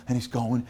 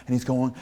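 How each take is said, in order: Both takes have the same delivery.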